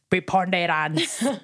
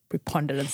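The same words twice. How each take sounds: First: The word is said in a Kenyan accent. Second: The word is said in a British accent. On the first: "If it's a Kenyan accent, it would be" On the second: "I had to do a British accent to say such a long word"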